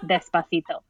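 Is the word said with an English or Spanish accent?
Spanish. It is pronounced with a Spanish accent. "I can't listen to it if it's despacito"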